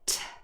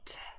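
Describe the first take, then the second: First: The t is released with a puff of air. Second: The t is released without a puff of air. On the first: "but t" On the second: "it's not just t"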